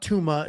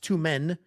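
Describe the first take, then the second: First: The name ends in a vowel sound. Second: The name ends in an n sound. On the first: The speaker calls it wrong. "it's not Tuma" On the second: The speaker calls it right. "It's two men"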